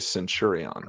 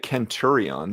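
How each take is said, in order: First: The word begins with a soft S sound. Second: The word begins with a hard K sound. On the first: This is the English-style pronunciation. The speaker calls it right. "you would say centurion" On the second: This is the Latin-style pronunciation. The speaker calls it wrong. "you wouldn't say centurion"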